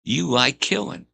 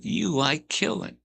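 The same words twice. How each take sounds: First: Imitating Pee Wee. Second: High, slow, insinuating voice; imitating Pee Wee. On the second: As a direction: draw it out high and creepy. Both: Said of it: "He said".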